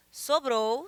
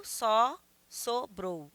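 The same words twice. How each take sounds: First: Said in the usual way. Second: "sobrou" broken as so, pause, brou; split into syllables. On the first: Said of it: "tem cinco sílabas". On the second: Shown as a demonstration. Teacher counting five syllables, "sobrou" pulled apart as so-brou. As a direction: say "só, sobrou" in separate counted beats. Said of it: "eu tenho só uma sílaba".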